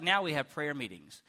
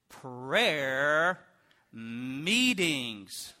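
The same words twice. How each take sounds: First: Said in the usual way. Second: PRAYER MEETINGS stretched long, word by word; slow, weighty stretch on each word of "prayer meetings"; drawn-out emphasis. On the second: Acted. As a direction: drag out "prayer" and "meetings" heavily. Contrasting long prayer meetings with today's.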